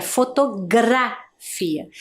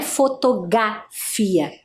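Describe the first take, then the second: First: "fotografia" slowly with a clear R in "gra"; R clearly sounded. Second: "fotografia" said as "fotogafia", no R after the G; R left out. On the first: Teacher corrects the word to show the letter's sound, R clearly sounded. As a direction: draw out "gra" in "fotografia", tapping the R after G. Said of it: "Tem o som da letra R". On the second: Teacher shows the mistake of forgetting the letter, R left out. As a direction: drop the R from "fotografia", making "gra" into "ga", slowly. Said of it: "Eu não posso esquecê-lo de colocar no meio". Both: Shown as a demonstration.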